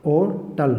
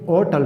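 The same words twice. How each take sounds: First: Said in the usual way. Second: ऑटल said slowly and carefully, syllable by syllable; ऑटल drawn out clearly for students; slow pronunciation demo. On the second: Shown as a demonstration. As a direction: spell out ऑटल slowly, as if to a class. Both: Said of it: "मतलब ऐसे पढ़ते हैं".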